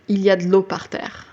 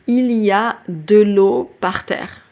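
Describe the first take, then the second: First: The word de is swallowed. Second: The word de is clearly pronounced.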